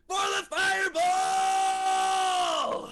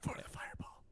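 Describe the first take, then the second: First: It is yelled loudly. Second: It is said at a normal speaking volume. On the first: The speaker calls it right. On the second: The speaker calls it wrong.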